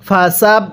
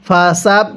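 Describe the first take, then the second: Both takes have the same delivery.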